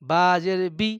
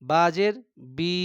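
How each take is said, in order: First: The final vowel is kept short. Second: The final vowel is drawn out long. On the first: The speaker calls it right. "টান দেওয়া যাবে না" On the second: The speaker calls it wrong. "এইভাবে হবে না।"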